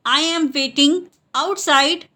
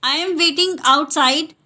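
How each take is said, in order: First: Word groups separated. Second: Said in the usual way. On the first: Shown as a demonstration. Teacher repeats the English for learners, word groups separated. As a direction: pause before "outside".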